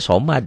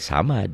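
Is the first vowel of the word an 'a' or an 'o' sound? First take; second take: o; a. First: The first vowel sounds like a rounded 'o'. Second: The first vowel sounds like an open 'a'. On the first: The speaker calls it right. "Padahal Allahnya somad" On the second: The speaker calls it wrong. "nggak boleh samad ya"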